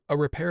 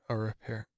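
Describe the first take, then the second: First: The word is said with exaggerated, overly crisp articulation. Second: The word is said loosely and not clearly. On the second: "Didn't enunciate the word repair enough. I went"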